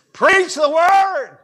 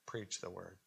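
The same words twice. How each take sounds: First: High, loud, drawn-out shout; full-force preaching. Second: Very soft, low and understated; said lightly. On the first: Preacher showing how preach must be said, full-force shout. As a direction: cry it out like a pulpit command. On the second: Preacher showing how not to say the word preach, said lightly. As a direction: drop it to a small, hushed voice. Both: Shown as a demonstration. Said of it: "I can't say it lightly".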